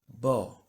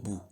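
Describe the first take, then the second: First: The syllable ends in an 'o' vowel. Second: The syllable ends in an 'oo' vowel. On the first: The speaker calls it right. "It will be Ba, Be, Bi, Bo, Bo" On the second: The speaker calls it wrong. "Not Ba, Be, Bi, Bo, Bu"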